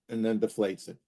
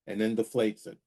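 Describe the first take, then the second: No difference in how they are said.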